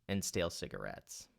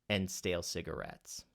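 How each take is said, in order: No difference in how they are said.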